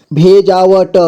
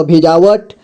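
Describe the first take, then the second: First: भेजावट with final ट sounded separately; syllable by syllable. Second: Said in the usual way. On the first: Shown as a demonstration. Teacher breaking down भेजावट for learners, syllable by syllable. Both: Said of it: "जोड़ जोड़ करके".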